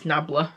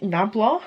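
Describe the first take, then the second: First: Nabla ending in a weak "uh", NAB-luh; tentative pronunciation. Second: Nabla ending in an open "aw", NAB-law; questioned pronunciation. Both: Shown as a demonstration. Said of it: "Is that how you pronounce it?".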